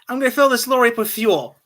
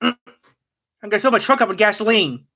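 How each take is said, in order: First: It is said in a British accent. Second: It is said in an American redneck accent.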